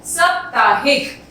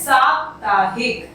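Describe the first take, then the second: First: साप्ताहिक said slowly, long आ stressed; wrong version, slowed for the class; wrong form. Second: साप्ताहिक with a short first syllable; correct form. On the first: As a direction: draw out साप्ताहिक deliberately. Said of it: "इसे हम साप्ताहिक नहीं बोलते". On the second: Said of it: "इसे हम बोलते हैं साप्ताहिक". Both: Shown as a demonstration.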